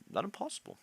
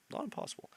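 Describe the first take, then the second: First: High, rising, hopeful. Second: Whispered to himself. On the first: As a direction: lift it up high with a questioning rise. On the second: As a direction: breathe it out as a whisper. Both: Real, not acted.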